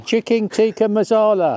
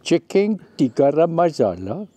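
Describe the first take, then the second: First: Put-on laughing Indian accent. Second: Chicken tikka masala in a put-on Indian accent. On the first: Wife naming the dish in an Indian accent for the camera. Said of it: "do that accent again". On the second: Wife repeating the dish in an Indian accent on request. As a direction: lean into an Indian accent, rolling the words. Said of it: "Do, do that accent again".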